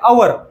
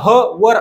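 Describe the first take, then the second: First: The word begins with a vowel sound. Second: The word begins with an h sound. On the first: The speaker calls it right. "ह silent असतो" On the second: The speaker calls it wrong. "हवरला ह वर असं न वाचता"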